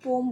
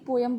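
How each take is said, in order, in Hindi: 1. यह शब्द एक सिलेबल में बोला जाता है। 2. यह शब्द दो सिलेबल में बोला जाता है। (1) "इसकी करेक्ट प्रोनाउंसिएशन होती है पोम" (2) "नॉर्मली पोएम बोलते हैं इसको"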